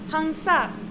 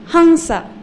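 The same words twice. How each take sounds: First: The stress is on the second syllable. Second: The stress is on the first syllable. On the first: The speaker calls it wrong. "If the second syllable was long, then we would say hansa" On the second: The speaker calls it right. "because the first syllable is short, that's why we say hansa"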